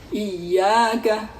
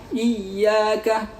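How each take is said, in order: No difference in how they are said.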